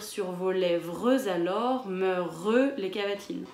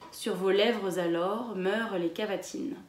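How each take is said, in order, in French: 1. Le e muet dans 'meurent' est fortement allongé. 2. Le e muet dans 'meurent' est prononcé légèrement.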